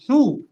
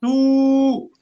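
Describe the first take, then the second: First: Short "ثو", cut to one beat; quick "ثو" with a short u; short vowel. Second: Long "ثو", vowel held steady; sustained, higher "ثو". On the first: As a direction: say "ثو" briefly, vowel not held. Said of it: "نقول هنا". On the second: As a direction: stretch the u of "ثو" right out. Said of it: "وهنا نقول". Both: Shown as a demonstration.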